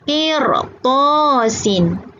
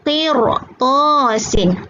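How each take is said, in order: No difference in how they are said.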